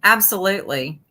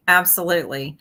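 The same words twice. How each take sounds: The two takes are said the same way.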